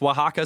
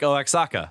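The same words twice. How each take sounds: First: The name is said in its native pronunciation. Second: The name is read out letter by letter. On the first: The speaker calls it right. "but it's pronounced Oaxaca" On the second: The speaker calls it wrong. "Oaxaca looks like Oaxaca"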